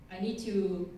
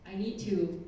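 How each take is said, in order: Both takes have the same delivery.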